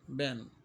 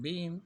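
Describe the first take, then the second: First: The vowel is short, like in 'bin'. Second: The vowel is long, like in 'bean'. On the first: "but we read it this way" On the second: "Although it's been, been, B W N"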